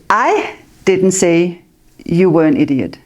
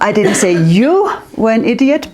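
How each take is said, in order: First: The word 'I' carries the main stress. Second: The word 'you' carries the main stress. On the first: Someone else said it. "But somebody else said it" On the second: It was meant about other people. "but your friends, they are not very clever"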